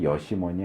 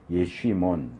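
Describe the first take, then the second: First: The middle consonant is a plain 's' sound. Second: The middle consonant is an 'sh' sound. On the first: The speaker calls it wrong. "정확한 발음은 여시몬이 아니고" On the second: The speaker calls it right. "정확한 발음은"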